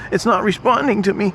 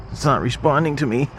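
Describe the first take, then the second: First: Squeaky high panic; high mock panic. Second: Said in the usual way. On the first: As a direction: repeat it up high in mock alarm. It's not responding to me.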